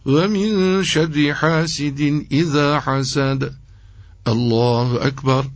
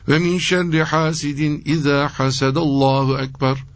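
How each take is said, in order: First: There is a breath pause before Allahu ekber. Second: It runs straight into Allahu ekber without pausing. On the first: The verse ends before the takbir begins. The speaker calls it right. "Nefes alacak ve duracak" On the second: It sounds as if God is the one who envies. The speaker calls it wrong. "Şöyle yapmayacak yani"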